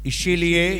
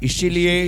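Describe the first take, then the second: The two takes are said the same way.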